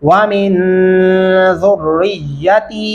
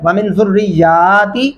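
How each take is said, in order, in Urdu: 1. ی کی حرکت مختصر ہے؛ آخری ت لمبی ہے۔ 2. ی کی حرکت لمبی ہے؛ آخری ت مختصر ہے۔ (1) "یا کو لمبا نہیں کرنا، تا کو کرنا ہے" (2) "یا کو لمبا کر دیتے ہیں اور تا کو نہیں کرتے"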